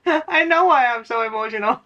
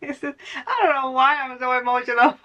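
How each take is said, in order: First: Said through a laugh, pitched up; laughing, knowing. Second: Higher, playful put-on voice of someone lost; mock clueless viewer. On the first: Real, not acted. Reader answering her own mock viewer, laughing. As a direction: laugh as you admit you know. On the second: Reader mimicking a confused viewer, pitched-up mock voice. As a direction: play the puzzled viewer, pitched up and teasing.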